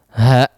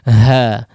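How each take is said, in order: First: The vowel is cut off abruptly in the throat. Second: The vowel fades away gently on the breath. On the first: The speaker calls it wrong. "jangan diputus dengan menutup apa? Pita suara ... tidak seperti itu ya" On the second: The speaker calls it right. "Dihabiskan di udara"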